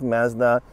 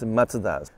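First: Mazda is said with a Canadian pronunciation. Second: Mazda is said with a Japanese pronunciation. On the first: "my pronunciation for Mazda is more Canadian, which is Mazda" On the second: "in Japan it's Mazda"

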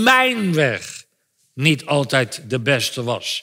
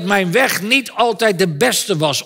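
First: The word mijn is strongly emphasized. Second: No single word carries strong emphasis.

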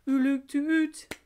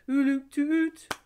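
No difference in how they are said.

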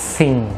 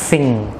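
First: It begins with a hissing s sound. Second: It begins with a breathy th sound. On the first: The speaker calls it wrong. "Còn hơi mình canh chỉ còn nửa hơi, bắt đầu mình đọc ra" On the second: The speaker calls it right. "đẩy cái hơi ra"

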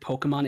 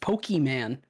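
First: The first syllable is said plainly and casually. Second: The first syllable 'Poke' is over-enunciated. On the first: "they don't say just Pokemon" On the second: "I always love how they enunciate poke"

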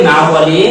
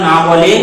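The two takes are said the same way.

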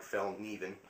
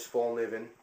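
First: The first syllable sounds like 'fell'. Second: The first syllable sounds like 'full'. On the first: The speaker calls it right. "It's more like Fel Niven" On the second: The speaker calls it wrong. "I'm pronouncing that incorrectly"

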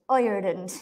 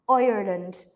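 No difference in how they are said.

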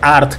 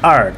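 First: It is said with a Spanish-style pronunciation. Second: It is said with an American-style pronunciation. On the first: The speaker calls it wrong. "Esto no se dice art como tal" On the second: The speaker calls it right. "sino por supuesto como gringo"

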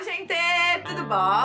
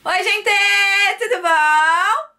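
First: It is said more quietly. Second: It is said loudly, almost shouted.

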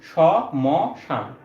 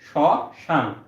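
First: The m sound after the first consonant is pronounced. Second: The m sound after the first consonant is silent. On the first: The speaker calls it wrong. "যদি ম উচ্চারণ করতাম তাহলে হয়তো স ম শান" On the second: The speaker calls it right. "আমরা এখানে direct বলি শ্মশান"

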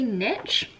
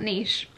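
First: The word is said the American way. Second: The word is said a non-American way. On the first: "in America they say niche" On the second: "not niche"

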